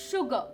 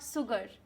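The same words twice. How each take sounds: First: The word begins with an sh sound. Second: The word begins with an s sound. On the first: The speaker calls it right. "So it is sugar" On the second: The speaker calls it wrong. "It's not sugar"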